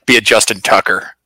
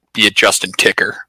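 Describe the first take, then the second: First: Said in the usual way. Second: 'Ticker' said with a short i vowel; misspoken name. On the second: Real, not acted. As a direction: say 'Justin Ticker' with ih in the name.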